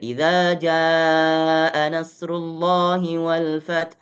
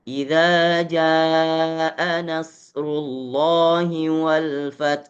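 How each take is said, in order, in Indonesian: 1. Frasa itu dibaca dengan tempo sedang. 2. Frasa itu dibaca lambat dengan vokal panjang. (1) "Kalau kita naik tadwir" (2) "kalau membaca lambat tahqiq"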